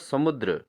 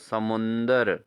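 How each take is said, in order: First: No n sound comes before the d. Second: An n sound comes before the d. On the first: The speaker calls it right. "समुद्र होता है" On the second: The speaker calls it wrong. "समुंदर नहीं होता"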